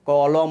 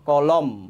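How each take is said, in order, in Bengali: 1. শব্দটি ম-এর পরে একটি খোলা স্বরধ্বনি দিয়ে শেষ হয়। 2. শব্দটি ঠোঁট বন্ধ করে উচ্চারিত ম দিয়ে শেষ হয়। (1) "যদি মর সাথে অ থাকতো তাহলে হয়তো কলম, কলম, মুখটা খুলে খুলে যেত" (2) "মুখটা বন্ধ হয়ে গেছে"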